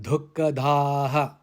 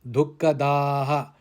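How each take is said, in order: The two takes are said the same way.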